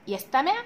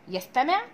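Both takes have the same delivery.

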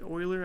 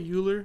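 First: The name has a French-style pronunciation. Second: The name has an American-style pronunciation. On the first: "But he's French, and I guess you might pronounce it Euler" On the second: "As a simple American, that's how I pronounce it"

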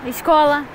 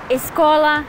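Both takes have the same delivery.

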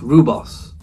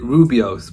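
First: The word is said with two syllables. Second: The word is said with three syllables. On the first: The speaker calls it right. "but I think it's Rubos" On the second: The speaker calls it wrong. "I pronounced it Rubios"

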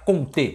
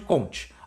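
First: The name is said with French sounds. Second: The name is said with Brazilian Portuguese sounds. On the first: This is the original form of the name. "o correto, como ele é francês" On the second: This is the usual form in Brazil. "a gente costuma no Brasil chamar de Comte"

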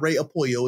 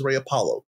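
First: The ending sounds like the Spanish word 'pollo'. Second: The ending sounds like the English name 'Apollo'. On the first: The speaker calls it wrong. "no, it's not Ray Apollo" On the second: The speaker calls it right. "it's Ray Apollo"

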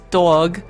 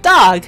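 First: The word is said in a New York accent. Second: The word is said in a general American accent. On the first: The speaker calls it right. "the New York accent, which is dog" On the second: The speaker calls it wrong. "everyone's like, dog"

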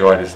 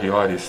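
First: The name starts without an h sound. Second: The name starts with an audible h sound.

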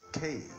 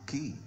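First: The letter is said with an 'ay' vowel. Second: The letter is said with an 'ee' vowel. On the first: The speaker calls it right. "It's pronounced as K" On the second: The speaker calls it wrong. "It is not key"

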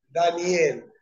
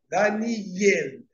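First: The final syllable starts with a vowel, 'el'. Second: The final syllable starts with a y sound, 'yel'. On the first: The speaker calls it wrong. "no es Daniel" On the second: The speaker calls it right. "La Tzeré, la E, va debajo de la Yod, no debajo de la Ale"

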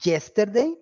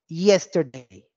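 First: It begins with a hard, j-like consonant. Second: It begins with a soft, ee-like glide. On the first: The speaker calls it wrong. "No es yesterday, my dear" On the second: The speaker calls it right. "Pero en inglés sí hay que hacerlo"

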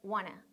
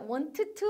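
First: The words are reduced to a quick wanna. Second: Both words are said slowly with two t sounds. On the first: The speaker calls it right. "want to를 좀 더 빨리 해서 wanna" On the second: The speaker calls it wrong. "천천히 해서 진짜 want to 하시면 안 되는"

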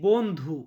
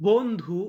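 No difference in how they are said.

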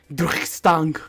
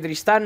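First: The name is said in an exaggerated posh French accent. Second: The name is said in a plain Spanish accent. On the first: "se pronuncian en francés pijo" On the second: "Vamos a pronunciarlo normal"

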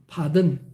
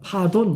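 First: The last syllable has a weak, reduced vowel. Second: The last syllable has a full 'o' vowel. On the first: "근데 든, 그럽니다" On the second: "아마 옛날에 파돈 그랬을 겁니다"

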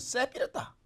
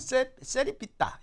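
First: The word is said quickly in a reduced form. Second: The word is said carefully with every syllable. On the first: "저걸 빨리 하면 쎄뿌렸다" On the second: "정확하게 하면 세리삐따 이렇게 하네"

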